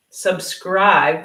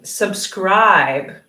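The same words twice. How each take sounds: First: Subscribe repeated with a rising end; demo repeat. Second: Subscribe said slowly and clearly, falling at the end; clear demo. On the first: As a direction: say Subscribe again with the tune going up. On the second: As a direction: model the word Subscribe for learners to copy. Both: Shown as a demonstration. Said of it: "then you can mimic me".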